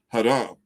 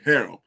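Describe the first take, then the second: First: The word is said with an Arabic pronunciation. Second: The word is said with an English pronunciation. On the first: "Arabic, it's pronounced haram" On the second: "In in English, they pronounce it harem"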